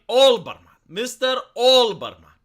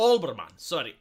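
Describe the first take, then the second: First: Olbermann said again, much louder and falling, the name fixed; loud corrected Olbermann. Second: Said in the usual way. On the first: Shown as a demonstration. Correcting himself, he calls Mister Olbermann out loud. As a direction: call out Olbermann firmly, louder, to set the name straight. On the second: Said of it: "I, I, O".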